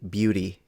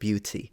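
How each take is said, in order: First: The middle t sounds like a soft d. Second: The middle t is a clear t sound. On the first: "When the T is pronounced like a soft D" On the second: "instead of"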